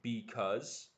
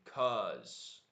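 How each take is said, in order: First: The word is said in full, two syllables. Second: The word is shortened to one syllable. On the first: It is clearer and more understandable. The speaker calls it right. "I think it's better to say because" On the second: It is casual native shorthand. The speaker calls it wrong. "they say cuz, not because"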